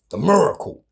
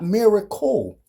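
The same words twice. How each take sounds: First: "miracle" as MUR-acle; Baltimore-style "miracle", MUR at the front; Baltimore pronunciation. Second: "miracle" spelled out as MEER-a-cle; slow, higher, careful "miracle"; over-careful standard "miracle", clear first vowel; standard pronunciation. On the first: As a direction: say "The miracle" with an r-colored first vowel. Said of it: "That's how we say it in Baltimore". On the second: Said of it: "Not miracle". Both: Shown as a demonstration.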